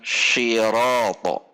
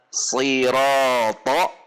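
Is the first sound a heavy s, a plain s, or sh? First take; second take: sh; heavy s. First: It begins with an sh sound. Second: It begins with a heavy, tense-tongued s sound. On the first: The speaker calls it wrong. "atau bahkan shiroto" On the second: The speaker calls it right. "ini harus dibaca siroto"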